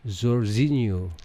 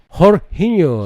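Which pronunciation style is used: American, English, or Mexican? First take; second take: American; Mexican. First: The name is said with an American English pronunciation. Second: The name is said with a Mexican Spanish pronunciation. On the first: "Untuk pronunciation eh, American English aja" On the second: "Kalau Meksiko"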